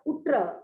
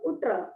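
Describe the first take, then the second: First: The middle consonants are pronounced as 'tt'. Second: The same.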